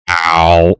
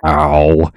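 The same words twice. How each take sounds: First: A loud, changed-voice repeat of the ow; dramatic ow. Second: Loud mock yelp of pain; a comic loud ow. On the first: Retold or imitated. Camera zooms in, she repeats Ben's ow loudly. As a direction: replay the ow as a zoomed-in close-up. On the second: Ben hits the chain and yelps a loud ow. Ben's pained reaction retold.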